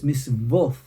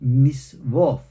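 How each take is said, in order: First: The word ends with a th sound. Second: The word ends with a th sound.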